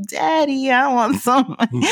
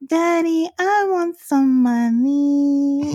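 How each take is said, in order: First: Put-on higher little-girl begging voice, laughing through it; imitating little daughter. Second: Put-on much higher, slow whiny little-girl voice; imitating little daughter. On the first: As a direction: whine like a kid, cracking up. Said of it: "Like, walk in the room". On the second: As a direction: beg like a small child asking dad for cash. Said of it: "at random walk into the room and be like".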